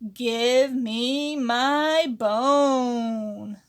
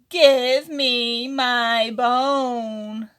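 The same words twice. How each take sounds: First: It is said fairly quietly. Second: It is said noticeably louder.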